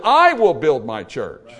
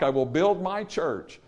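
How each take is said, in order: First: "I" hit loud and drawn out; loud, slow emphasis on "I"; stress on I. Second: Said in the usual way. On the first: Shown as a demonstration. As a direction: punch the word "I", slowing the whole line. Repeats verse to stress who builds.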